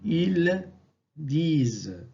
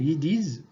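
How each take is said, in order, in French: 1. Le L de « ils » se prononce. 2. Le L de « ils » ne se prononce pas. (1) "À l'écrit" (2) "tombe devant consonne"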